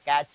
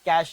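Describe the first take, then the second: First: The word ends with a 'ch' sound. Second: The word ends with a 'sh' sound. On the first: This is how the word is written. "ക്യാച്ച് എന്നാണ് എഴുതിയിട്ടുള്ളത്" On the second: This is how the word is pronounced. "അതിനെ pronounce ചെയ്യുക എന്താ, ക്യാഷ് എന്നാണ്"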